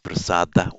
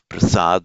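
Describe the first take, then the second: First: The word ends with a vowel after d. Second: The word ends on the d sound. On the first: This is the southern Indian form. "in southern India it would still be pronounced" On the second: This is the northern Indian form. "in the languages of northern India"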